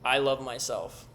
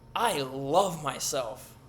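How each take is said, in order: First: It is said flatly with low energy. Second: It is said with lively, high energy.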